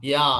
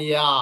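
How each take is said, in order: No difference in how they are said.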